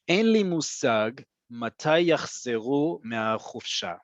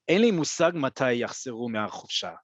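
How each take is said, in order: First: The sentence is spoken at a slow pace. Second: The sentence is spoken at a fast pace. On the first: "I just read that slowly" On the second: "I'm going to read it at a faster pace as I would say it"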